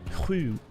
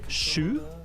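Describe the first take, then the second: First: It starts with a soft, breathy exhaled h. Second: It starts with a harsh hissing sh. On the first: "this exhaling sound" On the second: "like a harsh sound"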